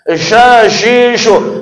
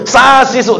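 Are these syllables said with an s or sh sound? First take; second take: sh; s. First: The syllables begin with a sh sound. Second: The syllables begin with a plain s sound. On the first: The speaker calls it right. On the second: The speaker calls it wrong.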